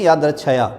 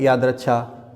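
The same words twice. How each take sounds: First: यादृच्छया ending in "chhaya"; wrong form. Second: यादृच्छा ending in long "chhaa"; correct form. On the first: Teacher shows what many write, यादृच्छया with extra "ya". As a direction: add "ya" to the end of यादृच्छया. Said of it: "जो कि गलत है". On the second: Teacher corrects students, यादृच्छा ending in "chhaa". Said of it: "सही है". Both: Shown as a demonstration.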